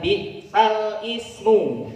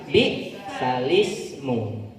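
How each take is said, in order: First: The word ismu starts with its own vowel. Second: The l runs straight into the following vowel. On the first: This is the original form before the vowel moves. "Asalnya adalah" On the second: The vowel is moved back onto the preceding consonant. "Terus diganti menjadi"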